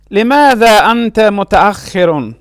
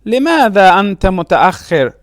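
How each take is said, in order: First: متأخر said "mu-ta-akh-khi-run"; full case ending. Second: متأخر said "mu-ta-akh-khir", stopping on r; pausal ending. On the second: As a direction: drop the "-un" from متأخر. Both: Shown as a demonstration.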